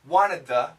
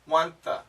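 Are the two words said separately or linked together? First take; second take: separate; linked. First: Each word is said separately and fully. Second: The words blend together into one reduced form.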